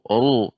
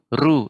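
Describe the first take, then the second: First: The r is said heavy and full. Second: The r is said light and thin.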